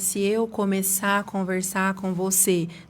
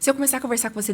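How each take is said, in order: First: It is spoken very slowly and drawn out. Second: It is spoken very fast with blurred articulation. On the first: The listener gets tired and bored. "você vai ficar cansado?" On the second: The listener struggles to understand. "Quando você fala muito rápido, às vezes a sua articulação, ela fica imprecisa"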